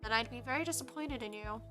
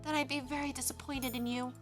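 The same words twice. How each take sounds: First: It is said without Emmeline's character voice. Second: It is said in Emmeline's character voice.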